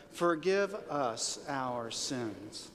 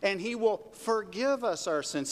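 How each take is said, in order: First: Very slow, deliberate say-along; say-along recital. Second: Said in the usual way. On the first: Shown as a demonstration. Preacher has the congregation say it to believe it, drawn-out recital. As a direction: stretch each word of FORGIVE US OUR SINS. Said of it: "let's say it because we gotta believe it". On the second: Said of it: "Say that with me".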